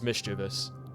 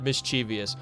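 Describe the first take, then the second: First: It has three syllables with no sound after v. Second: It has an extra 'ee' syllable after v. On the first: The speaker calls it right. "The word is mischievous. There is no I following the V" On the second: The speaker calls it wrong. "It's not mischievous"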